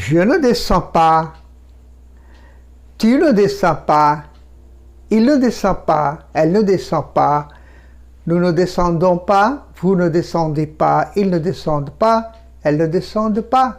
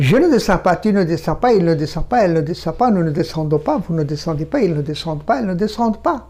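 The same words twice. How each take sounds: First: Slow, measured French drill with pauses; slow model recitation. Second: Rapid run through the negative forms; very fast. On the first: French teacher models negative forms for learners, slowly. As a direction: say each negative form slowly and separately. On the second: French teacher shows how quickly French is spoken, very fast. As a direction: rattle off the French conjugation without pausing. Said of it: "দ্রুত বলতে হবে". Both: Shown as a demonstration.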